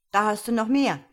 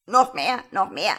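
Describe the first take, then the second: First: Loud, higher offer to a pet bird; raised, encouraging voice; boy offering more. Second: Insistent parroting bird, much louder; starling's call. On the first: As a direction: hand it over with a lively call. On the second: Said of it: "rief der Star". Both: A narrator's reading.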